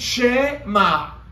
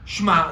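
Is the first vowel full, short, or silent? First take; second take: full; silent. First: The first vowel is a full e sound. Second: The first vowel is dropped entirely. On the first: "זה לא צרס, זה גם לא סגול" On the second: "זה לא שווה נח"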